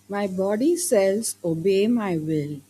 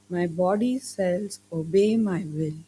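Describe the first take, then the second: First: It is said loudly. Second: It is said softly.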